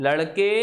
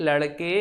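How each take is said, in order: Both takes have the same delivery.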